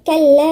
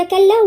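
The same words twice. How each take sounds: First: كلا with a long held final "aa"; madd when joining. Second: Said in the usual way. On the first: Shown as a demonstration. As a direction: stretch the last vowel of كلا for four counts. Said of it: "وقت الوصل نقول إيه؟". (مد الألف في "كلا" أربع حركات) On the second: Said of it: "خلاص مفيش مد".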